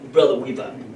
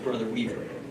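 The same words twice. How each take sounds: First: It is said in a mocking, exaggerated way. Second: It is said in a plain, neutral way.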